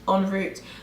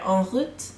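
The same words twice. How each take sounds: First: It is said with a British pronunciation. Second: It is said with a French pronunciation. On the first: "en route is the way a Brit, like you'd say in English" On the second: "En route is what it is meant to be in French"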